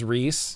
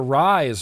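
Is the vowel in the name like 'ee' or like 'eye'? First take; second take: ee; eye. First: The vowel sounds like 'ee', rhyming with 'piece'. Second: The vowel sounds like 'eye', rhyming with 'rise'. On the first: The speaker calls it right. "R H Y S is pronounced Reese" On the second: The speaker calls it wrong. "I'll stop calling you Rise"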